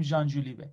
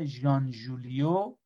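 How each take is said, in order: First: ژولیوه ending in "-veh", not "-yo"; corrected pronunciation. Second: ژولیو ending in an open "-yo"; mispronounced name. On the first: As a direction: say ژان ژولیوه as "Zhan Zholiveh". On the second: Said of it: "اگه درست تلفظ کرده باشم". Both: Real, not acted.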